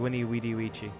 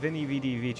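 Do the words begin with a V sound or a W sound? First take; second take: W sound; V sound. First: The words begin with a W sound. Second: The words begin with a V sound. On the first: "It's supposed to be" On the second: "in ecclesiastical Latin it's a V"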